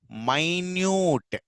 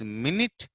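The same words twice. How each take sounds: First: "minute" as my-NYOOT, long drawn-out vowels; adjective pronunciation. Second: "minute" as MIN-it, two short vowels; noun pronunciation. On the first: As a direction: stretch "minute" out like "mine-yoot". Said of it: "The second one is minute". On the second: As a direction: say "minute" like "minnit". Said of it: "Here is minute". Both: Shown as a demonstration.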